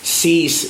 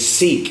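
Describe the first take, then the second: First: The name is said like 'cease'. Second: The name is said like 'seek'. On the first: The speaker calls it wrong. "Stop saying" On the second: The speaker calls it right. "It's seek"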